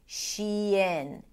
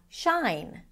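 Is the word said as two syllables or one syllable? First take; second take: two syllables; one syllable. First: It is said as two syllables, she-in. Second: It is said as one syllable, like shine. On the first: The speaker calls it right. "make sure you're shifting between the high E of the she to the lax I of the in" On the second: The speaker calls it wrong. "people tend to pronounce it as shine"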